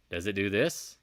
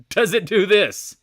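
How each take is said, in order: First: Said in the usual way. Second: Loud, high and drawn out; laughing exclamation. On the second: Shown as a demonstration. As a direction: blurt the question out through laughter. Repeats it loudly, laughing.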